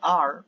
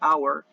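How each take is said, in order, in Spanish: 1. Suena como el verbo 'are'. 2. Suena como 'hour', no como 'are'. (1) "puedo decir are, como el verbo to be" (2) "o puedo decir our"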